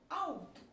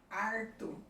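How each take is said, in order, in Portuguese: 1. O L soa como a vogal U. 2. O L é substituído por um som de R. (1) "como se fosse um U" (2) "O L é transformado em R"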